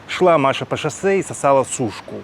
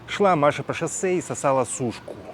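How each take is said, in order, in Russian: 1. Записано на высоком усилении. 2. Записано на низком усилении. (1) "Сейчас минус шесть" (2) "Сейчас у меня стоит минус двенадцать"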